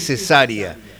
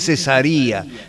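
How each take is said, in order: First: The stress is on the second syllable. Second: The stress is not on the second syllable. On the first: It is said like the surgical operation. "Acá está con acento en la segunda, en la primera, así que Cesárea, como la operación quirúrgica" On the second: It sounds more African. "en algunos videos le dicen Cesárea, Cesárea Évora. Suena mejor, más africano"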